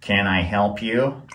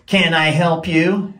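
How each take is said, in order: First: It is said quietly. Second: It is said loudly.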